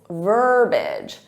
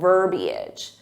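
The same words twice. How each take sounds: First: The word is said with two syllables. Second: The word is said with three syllables. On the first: The speaker calls it right. "there should only be two syllables" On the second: The speaker calls it wrong. "So they add that extra syllable"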